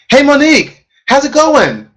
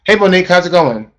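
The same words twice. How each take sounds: First: It sounds cheerful, with a smile. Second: It sounds flat, without a smile.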